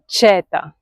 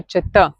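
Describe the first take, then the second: First: Četa stressed on the first syllable, CHE-ta; open, stressed che at the start of četa; wrong stress. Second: Čt said as cheTA, short first vowel, stressed ending; correct end stress. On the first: Teacher warning what not to say, četa with first-syllable stress. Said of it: "You don't say četa". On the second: Teacher giving the right form, čt with stress at the end. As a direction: land on the final vowel of čt. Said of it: "You say čt". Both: Shown as a demonstration.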